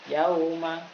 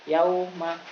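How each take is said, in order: No difference in how they are said.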